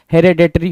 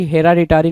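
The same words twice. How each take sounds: First: हेरेडिटरी with 'ए' in the second syllable, he-re-ditri; correct pronunciation. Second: हेराडिटरी with a clear 'आ' in the second syllable, he-RA-diteri; wrong pronunciation. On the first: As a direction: say हेरेडिटरी the right way, 're' not 'ra'. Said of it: "हेरेडिटरी होता है". (सही उच्चारण: हेरेडिटरी, 'रे' के साथ) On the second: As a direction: say हेराडिटरी the wrong way, 'रा' spelled out. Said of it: "हेराडिटरी नहीं होता". (गलत उच्चारण: हेराडिटरी, 'रा' के साथ) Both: Shown as a demonstration.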